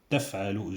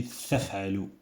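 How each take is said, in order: First: "تفعل" with a plain t; "تفعل" said with a clean t; correct t. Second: "تفعل" said with a th; "تفعل" lisped; wrong th. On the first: Teacher models the right "تفعل". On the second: Teacher shows the wrong "تفعل". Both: Shown as a demonstration. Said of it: "j'ai pas dit".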